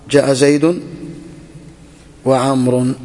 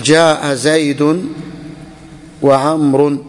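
First: Said in the usual way. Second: Very slow, stretched words for dictation; slow example. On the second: Shown as a demonstration. Teacher dictating the example sentence to the class, very slowly. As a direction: give each word its own slow beat. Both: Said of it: "تقول".

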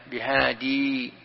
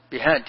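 First: بهادي with a long final ya, drawn out slowly; بهادي stretched, ya clearly kept. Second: بهاد cut short with no final ya; بهاد clipped at the d; ya dropped. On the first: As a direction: say بهادي slowly, holding the ending i. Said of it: "هنا مثبتة الياء". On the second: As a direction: stop on بهاد without the ending i. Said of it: "وقفت عليه تقول بهاد". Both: Shown as a demonstration.

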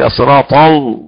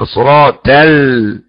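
First: "الصراط ال" with the l thickened like the ta; wrong heavy lam. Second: "الصراط ال" with a light t in place of the emphatic ta; wrongly thinned ta. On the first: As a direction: imitate the mistake of a dark, heavy l in "الصراط ال". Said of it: "اللام مرققة. لا أسمع بقى واحد يقول". (مثال خاطئ بتفخيم اللام في "الصراط ال") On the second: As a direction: imitate the mistake of a thin t in "الصراط ال", drawn out. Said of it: "ولا يرقق الطاء فيقول". (مثال خاطئ بترقيق الطاء في "الصراط ال") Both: Retold or imitated.

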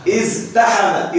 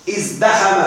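First: ازدحم slowed and split, iz... taḥama; underlying form with ta. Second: Said in the usual way. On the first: Shown as a demonstration. Teacher showing the original form before substitution, slow split pronunciation. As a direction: sound out ازدحم with t in place of d. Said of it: "أصله إز". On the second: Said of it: "الفعل ازدحم".

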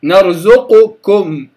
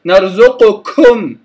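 First: نرزقكم said slowly, with a light kaf; correct slow kaf. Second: نرزقكم with a strong breathy puff on the kaf; wrong kaf. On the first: Teacher modelling the right kaf, slowly. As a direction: draw out نرزقكم gently, with no heavy puff. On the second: Teacher demonstrating the mistaken kaf to students. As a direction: push too much air after the kaf in نرزقكم. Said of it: "كم، خطأ". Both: Shown as a demonstration.

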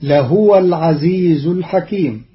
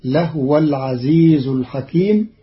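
First: لهو chanted as lahuwa; Quran recitation. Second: لهو with a silent ha, lahwa; لهو with a sukun; Qalun reading. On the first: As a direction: melodic tajweed. Verse recited before the rule. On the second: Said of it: "فتصير". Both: Shown as a demonstration.

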